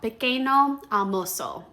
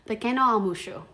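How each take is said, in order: First: Every vowel is pronounced fully and clearly. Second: Unstressed vowels are reduced or almost dropped. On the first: The speaker calls it wrong. "Our brains want to read every vowel" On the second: The speaker calls it right. "some of those unstressed vowels get reduced or almost disappear"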